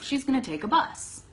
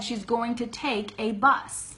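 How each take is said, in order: First: The word 'a' is short and reduced. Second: The word 'a' is full and emphasized. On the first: A plain first answer. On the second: The answer is repeated to make a point clear.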